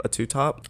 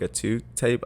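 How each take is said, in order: First: Correcting to two top; self-correction. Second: Tape said for top, a quick misspeak; blurted mistake, two tape; slip of the tongue. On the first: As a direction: top said clearly with a rising correction. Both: Real, not acted.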